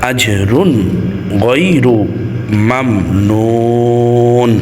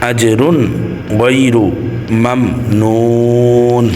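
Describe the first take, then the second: The two takes are said the same way.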